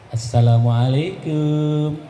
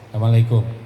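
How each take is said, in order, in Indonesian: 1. Diucapkan dengan nada lembut dan penuh harapan. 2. Diucapkan dengan nada pendek dan ketus. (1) "diucapkanlah salamnya dengan penuh harap" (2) "Ada orang yang mengucapkan salam itu ketus"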